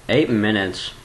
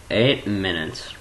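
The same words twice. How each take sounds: The two takes are said the same way.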